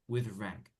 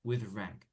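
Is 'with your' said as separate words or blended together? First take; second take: blended; blended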